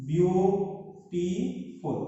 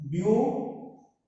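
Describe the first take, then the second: First: Beautiful drawn out slowly, beau-ti-ful; slow syllable split. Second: Said in the usual way. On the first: Shown as a demonstration. Teacher slowly sounds out beautiful for students. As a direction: stretch beautiful out so each syllable is heard. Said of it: "in this word there are three syllables". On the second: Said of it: "When we pronounce".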